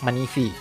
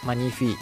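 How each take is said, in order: First: The middle consonant is an f sound. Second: The same.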